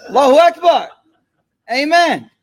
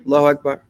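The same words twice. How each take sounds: First: Higher and louder Allahu Akbar, ringing out; full-voiced, higher call of Allahu Akbar; fervent church shout. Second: Said in the usual way. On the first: Shown as a demonstration. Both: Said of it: "Nah, yo".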